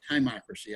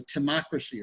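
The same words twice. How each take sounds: First: Timocracy with "tie" as first syllable; long-i pronunciation. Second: Timocracy with an unstressed "tuh" first syllable; short-i pronunciation. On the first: Teacher unsure of timocracy, trying it with a long "tie". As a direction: say timocracy as "tie-MOCK-ruh-see". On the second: Teacher trying out timocracy, first syllable reduced to "tuh". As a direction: say timocracy as "tuh-MOCK-ruh-see". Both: Shown as a demonstration. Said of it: "not really sure exactly how to pronounce it".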